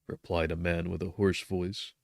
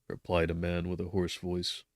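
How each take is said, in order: Both takes have the same delivery.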